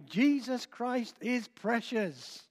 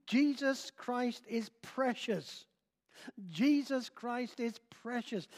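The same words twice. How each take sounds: First: Put-on an old preacher insisting, unhurried; old preacher, slow and emphatic. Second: Put-on old preacher repeating. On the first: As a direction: slowly stress each word of Jesus Christ is precious. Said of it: "the great old preacher said again". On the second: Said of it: "he kept repeating the phrase".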